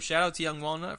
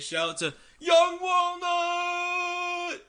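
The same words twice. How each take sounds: First: It is said at a normal speaking volume. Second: It is yelled loudly with high energy.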